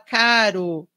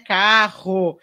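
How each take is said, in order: First: The middle r is a light single tap. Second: The middle r is strong and rolled. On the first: This is how some children say it; it is not wrong. "a criança lê aquela palavra e fala caro" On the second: This is the form said to be correct. "dizem que o correto é a gente falar carro"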